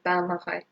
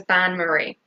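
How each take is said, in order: First: Bain-marie with a bad mock French accent, softer; quiet, self-mocking French bain-marie. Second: Said in the usual way. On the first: Shown as a demonstration. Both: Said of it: "in my appalling French accent".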